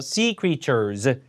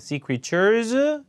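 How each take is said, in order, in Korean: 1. 음높이가 끝까지 꾸준히 내려갑니다. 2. 음높이가 구절 중간에 올라갑니다. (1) "이렇게 내려야 됩니다" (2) "이렇게 중간에 올라가거나 내리는 것이 가장 큰 감점 요인입니다"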